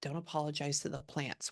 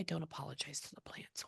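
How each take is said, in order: First: Said in the usual way. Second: Breathy whisper with no voice. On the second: Real, not acted. Medium whispering the spirit's words to herself. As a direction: murmur it under your breath, almost silent.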